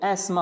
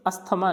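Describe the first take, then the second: First: एस्मा as ais-ma, TH silent; correct pronunciation एस्मा. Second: अस्थमा as as-tha-ma, TH sounded; mispronounced अस्थमा. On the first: Teacher correcting learners, एस्मा without TH. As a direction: say एस्मा in two syllables, ais-ma. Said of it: "एस्मा होता है". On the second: Teacher showing the common error, अस्थमा with audible TH. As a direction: say अस्थमा in three syllables with TH. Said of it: "अस्थमा नहीं होता है ये". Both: Shown as a demonstration.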